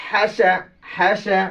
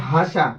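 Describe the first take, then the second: First: হাসা with fronted, light vowels, "hæ-sæ"; correct, careful pronunciation. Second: হাসা with plain, wide-open "aa" vowels; wrong pronunciation. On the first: Teacher models it nicely for pupils, হাসা with light fronted vowels. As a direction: say হাসা neatly, vowels leaning toward "æ". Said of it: "সুন্দরভাবে". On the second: Teacher shows pupils the mistake, হাসা with broad open vowels. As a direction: say হাসা as an open "haa-saa", unrefined. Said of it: "এখানে ভুল হয়ে যাবে, গলত হবে". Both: Shown as a demonstration.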